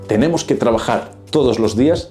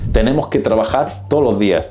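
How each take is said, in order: First: Every S and D sound is clearly pronounced. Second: The S and D sounds are dropped.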